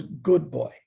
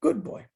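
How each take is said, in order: First: Lower, calm approving praise; a light hint of the guru's voice; understated approving teacher. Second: Much higher, sing-song praise for a dog; talking to a pet. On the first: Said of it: "And then he goes". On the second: Retold or imitated. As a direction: praise it the way you'd coo at a dog. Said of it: "the dog behaves, you go".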